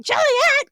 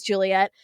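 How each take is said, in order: First: High, loud imitation of a screaming mother; hammed-up screamed name; mock scream. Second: Said in the usual way. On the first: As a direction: shriek the name like an overwrought mom, rising at the end. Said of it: "her mother just screams the whole movie". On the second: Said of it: "She just screams".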